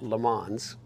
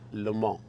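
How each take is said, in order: First: The name is said with an English pronunciation. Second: The name is said with a French pronunciation. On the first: The speaker calls it wrong. "Not Le Mans" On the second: The speaker calls it right. "I was a French major in college and I studied in Paris. So that's how you pronounce it"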